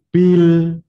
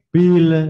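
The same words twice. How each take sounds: First: The final l ends cleanly without an extra vowel. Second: The final l releases with an extra vowel sound. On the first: The speaker calls it right. "nah itu" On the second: The speaker calls it wrong. "itu salah"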